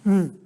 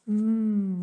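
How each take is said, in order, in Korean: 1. 급하고 재촉하는 느낌이에요. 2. 의심하고 미심쩍어하는 느낌이에요. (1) "빨리 얘기해, 빨리 얘기해. 뭐 이런 느낌" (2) "약간 뭔가 회의, 의심, 의구심"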